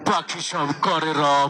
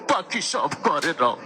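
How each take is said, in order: First: It is recited in a harsh, menacing voice. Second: It is recited in a weeping, sobbing voice. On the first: "এটা তারও বেশি ভয়ঙ্কর শোনা গেল" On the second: "কানতে কানতে কয়"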